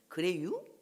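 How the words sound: It is said in a Chungcheong regional accent. A bird from Chungcheong speaks this way. "충청도 새는 그래요? 이렇게 하고"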